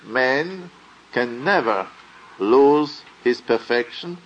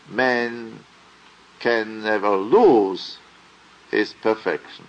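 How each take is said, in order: First: The stress falls on the word never. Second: The stress falls on the word lose. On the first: Losing perfection is not possible at any time. "My epitome there is also principle as life" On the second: The question is whether perfection can be lost or not. "It would be principle as soul if I would pronounce it"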